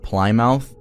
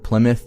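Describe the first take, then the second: First: It is said the way it is spelled. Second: It is not said the way it is spelled. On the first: The speaker calls it wrong. "I'm reading it as it looks" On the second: The speaker calls it right. "I'm gonna say Plymouth now"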